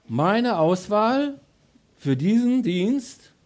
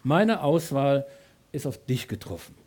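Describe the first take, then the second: First: Very slow, higher, louder words of God; slow divine voice. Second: Very slow, unraised and fading; slow, softer divine voice. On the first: God announcing his choice to the believer, very slow and higher. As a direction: weigh each word as God choosing you. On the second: God quietly telling the believer he is chosen, very slow. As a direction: let it settle quietly. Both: Acted. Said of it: "Gott sagt".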